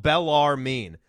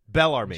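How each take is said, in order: First: The name is drawn out slowly. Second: The name is said quickly.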